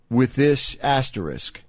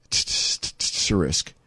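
First: Said in the usual way. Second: Low whispered echo of Asterisk; whispered aside. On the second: Real, not acted. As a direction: breathe Asterisk slowly, unvoiced and low. Host repeats the key word.

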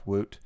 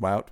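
First: "Wout" said to rhyme with "boot"; Wout as "woot". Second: "Wout" said to rhyme with "shout"; Wout as "wowt". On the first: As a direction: give Wout a pure "oo" vowel. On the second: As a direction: give Wout an "ow" diphthong. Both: Shown as a demonstration. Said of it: "I say Wout".

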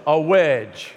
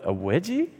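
First: "wedge" said firmly, with no "-ie" ending; correcting to wedge. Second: "wedgie" said as a puzzled question; a confused "wedgie", with a rising question; mock-puzzled "wedgie?"; misheard wedgie. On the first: Retold or imitated. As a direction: set it straight, a flat "a wedge". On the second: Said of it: "I thought".

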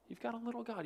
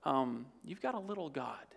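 First: Softer. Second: Said in the usual way. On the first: Shown as a demonstration.

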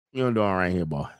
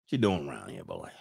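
First: Too-fast Mississippi accent. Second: Mississippi accent. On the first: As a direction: rush through it in a Mississippi accent. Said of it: "that was a little too fast". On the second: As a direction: ease it out low and soft, Mississippi style. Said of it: "do the Mississippi accent". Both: Shown as a demonstration.

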